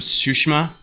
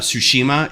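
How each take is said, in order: First: The middle i sound is nearly dropped. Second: The middle i sound is long and full. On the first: The speaker calls it right. "you don't say the the long uh, I in that. It's it's almost missing" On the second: The speaker calls it wrong. "it's not Ghost of uh, Tsushima"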